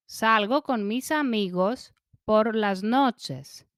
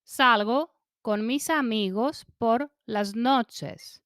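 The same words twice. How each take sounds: The two takes are said the same way.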